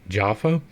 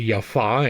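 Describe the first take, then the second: First: The name begins with a J sound. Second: The name begins with a Y sound. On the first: The speaker calls it wrong. "and not Jaffa" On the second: The speaker calls it right. "why I say Jaffa"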